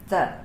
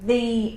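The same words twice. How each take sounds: First: The word is unstressed with a weak vowel. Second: The word is stressed with a full vowel. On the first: "We don't always say it in the unstressed way" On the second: "There I'm saying it with a stress"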